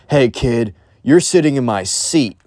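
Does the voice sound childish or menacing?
menacing. It is said in a tough, menacing voice. A big, scary adult is talking. The speaker calls it wrong. "he didn't say it like that"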